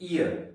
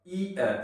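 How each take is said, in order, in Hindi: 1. दोनों ध्वनियाँ जल्दी बोली जाती हैं, एक-दूसरे में जुड़ी हुई। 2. दोनों ध्वनियाँ धीरे और अलग-अलग बोली जाती हैं।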